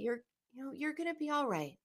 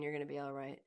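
First: The tone is warm and soothing. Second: The tone is curt and dismissive. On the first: The comfort feels caring and reassuring. The speaker calls it right. "Same words, totally different feeling" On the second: The comfort feels hollow and brushes the feeling off. The speaker calls it wrong. "That does not give you the warm fuzzies"

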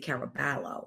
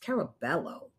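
First: The name is said with an Italian pronunciation. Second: The name is said with a Spanish pronunciation. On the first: The speaker calls it wrong. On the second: The speaker calls it right. "It's Caraballo"

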